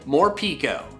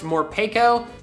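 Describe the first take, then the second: First: The middle syllable sounds like 'pee'. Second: The middle syllable sounds like 'peh'. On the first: The speaker calls it wrong. "I need more Pico de Gallo on my taco" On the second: The speaker calls it right. "it's probably actually pronounced Morpeko"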